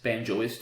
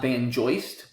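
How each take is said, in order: First: It is said as banjo plus ist. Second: It is said as ban plus joist. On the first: The speaker calls it right. "of course. Always cool to see extensions where you have to change the pronunciation" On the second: The speaker calls it wrong. "Not Banjoist"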